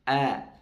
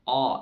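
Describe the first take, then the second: First: The vowel is thin and flat, like a. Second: The vowel is thick and rounded, like o. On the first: The speaker calls it right. "menipis ya" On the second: The speaker calls it wrong. "tidak boleh o, o dikatasin"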